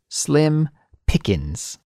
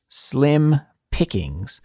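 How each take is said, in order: First: It is natural, with the final g sound dropped. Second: It is slow, with the final g sound pronounced. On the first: The speaker calls it right. "We all say slim pickings" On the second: The speaker calls it wrong. "the slow pronunciation of this expression"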